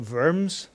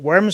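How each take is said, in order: First: The name is said with a German pronunciation. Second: The name is said with an English pronunciation. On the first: The speaker calls it right. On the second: The speaker calls it wrong.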